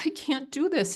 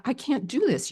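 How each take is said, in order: First: Much higher, tearful plea; retold crying. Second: Retold panic. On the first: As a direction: plead through tears, pitched way up. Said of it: "And I'm crying". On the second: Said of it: "I have this fear".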